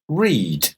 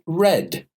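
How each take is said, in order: First: It has the present-tense pronunciation. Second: It has the past-tense pronunciation. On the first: The action happens habitually now. "So in the present" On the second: The action happened in the past. "But in the past, read, the pronunciation changes to read"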